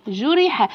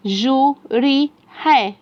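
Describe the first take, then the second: First: Syllables blended into one word; snatch the whole word in one go; snatched quick reading. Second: Slow, separated syllables; syllable-by-syllable reading. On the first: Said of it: "وأخليه يخطف الكلمة خطف كده عشان يقراها بسرعة". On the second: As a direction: sound out each piece with space between. Slow sounding-out before blended take. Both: Shown as a demonstration.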